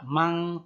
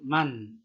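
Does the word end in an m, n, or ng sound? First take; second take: ng; n. First: The word ends with an ng sound. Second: The word ends with a clear n sound. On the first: The speaker calls it wrong. "Tidak mang" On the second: The speaker calls it right. "tapi man... n-nya jelas"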